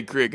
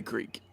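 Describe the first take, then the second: First: "crick" with a short i, rhyming with brick; Louisiana "crick". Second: "creek" with a long ee vowel; standard "creek". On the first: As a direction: say crick, short vowel, for creek. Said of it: "We say crick in Louisiana". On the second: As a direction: say creek to rhyme with seek. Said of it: "No, we say creek". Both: Shown as a demonstration.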